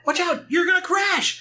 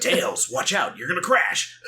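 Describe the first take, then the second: First: Very high, hammed-up cartoon shriek; panicked warning. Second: Lightly mimicked action-hero voice; David Hayter impression. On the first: Sonic warning Tails of a plane crash, panicked. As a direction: squeal the warning in mock terror. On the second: Imagining another actor voicing Sonic's warning, mock dramatic. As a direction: play the warning as a miscast voice actor, half laughing. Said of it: "David Hayter".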